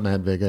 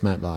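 First: The surname's first syllable does not rhyme with 'hi'. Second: The surname's first syllable rhymes with 'hi'. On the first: The speaker calls it wrong. "It's not Matt Vega" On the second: The speaker calls it right. "It's like hi with a V on it"

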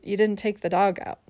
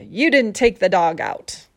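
First: It sounds calm. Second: It sounds angry.

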